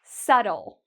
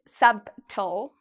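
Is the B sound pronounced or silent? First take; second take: silent; pronounced. First: The B sound is silent. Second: The B sound is pronounced. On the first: The speaker calls it right. "you don't need to worry about the B" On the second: The speaker calls it wrong. "We don't say subtle"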